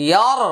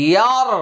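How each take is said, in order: No difference in how they are said.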